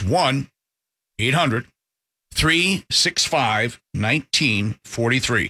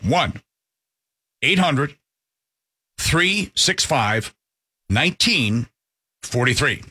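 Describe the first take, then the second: First: The number is said at a quicker pace. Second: The number is said slowly.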